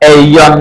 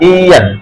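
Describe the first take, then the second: First: The word begins with an 'ay' sound. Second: The word begins with an 'ee' sound. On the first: The speaker calls it wrong. "এইয়ন না, এ ইয়ন এরকম হবে না" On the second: The speaker calls it right. "ইয়ান ইয়ান।"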